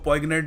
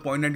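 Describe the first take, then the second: First: The g sound is pronounced in the middle. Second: The g sound is silent in the middle. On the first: The speaker calls it wrong. "इसको पॉइगनेंट नहीं कहते" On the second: The speaker calls it right. "Conversation में इसको use करोगे तो पॉइंटेंट use करना"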